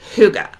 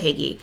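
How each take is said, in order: First: The word ends in an 'uh' sound. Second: The word ends in an 'ee' sound. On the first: The speaker calls it right. "it's pronounced Huga" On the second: The speaker calls it wrong. "We we said Higgy"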